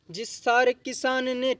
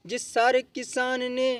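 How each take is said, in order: Both takes have the same delivery.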